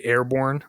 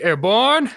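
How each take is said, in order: First: Said in the usual way. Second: High, drawn-out mock war cry; ironic cheer. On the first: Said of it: "like, ironically". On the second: Shown as a demonstration. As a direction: call it out high like an over-keen paratrooper. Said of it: "I always used to say airborne, like, ironically".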